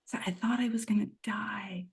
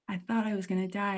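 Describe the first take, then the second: First: Barely voiced, breathy hush; whisper. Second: Said in the usual way. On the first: Real, not acted. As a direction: breathe it out like a secret. Retelling near-death realization.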